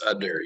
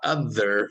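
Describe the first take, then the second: First: The middle consonant is a hard d. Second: The middle consonant is a soft th. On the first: The speaker calls it wrong. "it's udder, U D D E R" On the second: The speaker calls it right. "it's not other"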